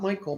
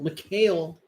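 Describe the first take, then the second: First: The name is said like the English name Michael. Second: The name is said as Mikhail, not as Michael. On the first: The speaker calls it wrong. "Not Michael" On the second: The speaker calls it right.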